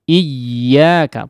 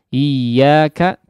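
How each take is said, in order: First: The doubled y gets a small sudden vocal push. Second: The doubled y is said flat, without a push. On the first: The speaker calls it right. "perlu ada semacam, eee, hentakan suara sedikit" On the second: The speaker calls it wrong. "jadi tidak lempeng"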